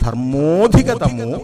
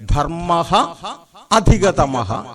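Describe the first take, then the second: First: One joined word with no a sound after o. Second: Two separate words, each ending in a breathy h. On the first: "ആ എടുത്തു പറയാതെ ധർമ്മോധികതമോ എന്നിങ്ങനെ ഉച്ചരിക്കുന്നതാണ്" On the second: "ധർമ്മഃ അധികതമഃ എന്ന് നമുക്ക് പിരിക്കാം"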